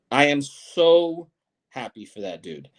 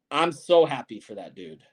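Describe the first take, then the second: First: Slow, drawn-out stress on "so"; slow, deliberate repeat leaning on "so"; emphatic repeat. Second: Said in the usual way. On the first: Real, not acted. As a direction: stretch out "so" and separate "I am" for emphasis. Emphatic slowed repeat of same words.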